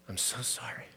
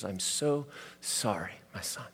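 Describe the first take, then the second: First: Soft whisper, barely voiced; a father's whispered sorry at the bedside; whispered comfort. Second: A father's quiet sorry to his son; tender comfort. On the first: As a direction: breathe it into the child's ear. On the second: Retold or imitated. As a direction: soothe a crying child at bedside. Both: Dad comforts crying son.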